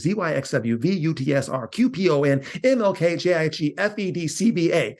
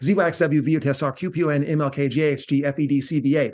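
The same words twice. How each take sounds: First: The letters are said slowly. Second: The letters are rattled off fast.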